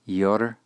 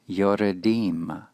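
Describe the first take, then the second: First: No vowel is heard between r and d. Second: A short vowel is heard between r and d. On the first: The speaker calls it wrong. "not yordim" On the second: The speaker calls it right. "this will be vocal"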